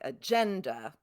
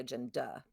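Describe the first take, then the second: First: The stress falls on the middle syllable. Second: The stress falls off the middle syllable. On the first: The speaker calls it right. "where it's second. That's that second to last syllable" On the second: The speaker calls it wrong. "We don't say agenda"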